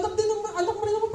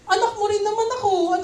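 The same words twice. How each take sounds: First: Rushed, tumbling repeat; fast repeat. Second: Plain. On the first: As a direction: rattle the repeated plea off fast. Repeats the plea faster. (mabilis na pag-ulit ng pakiusap) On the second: Voicing Hagar's hurt complaint. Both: Acted.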